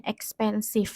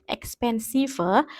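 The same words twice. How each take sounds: First: Said in the usual way. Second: "expensive" with the silent final e sounded; "expensive" ending in an extra little -ve syllable; pronounced as written. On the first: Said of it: "itu bacanya expensive". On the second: Shown as a demonstration. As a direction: read "expensive" letter for letter, adding a vowel after the v. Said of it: "Meskipun tulisannya expensive".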